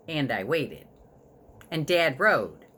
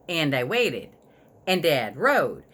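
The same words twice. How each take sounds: The two takes are said the same way.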